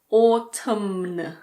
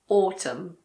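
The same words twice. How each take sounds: First: The final N sound is pronounced. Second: The final N sound is silent. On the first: The speaker calls it wrong. "It's not autumn" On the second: The speaker calls it right. "It's just autumn"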